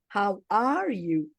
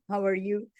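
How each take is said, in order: First: It is said with the jaw opened wide. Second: It is said in a tight Indian-influenced style.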